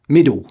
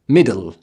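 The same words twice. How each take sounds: First: The final L turns into a W sound. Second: It ends in a voiced L, British style. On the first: "The Cockney fails to form the L sound, degenerating into a passive W" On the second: "Even standard British speakers will voice the L"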